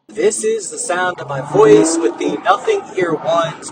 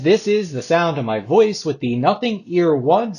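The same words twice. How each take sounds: First: The voice is heard over ambient background noise. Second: The voice is heard without background noise.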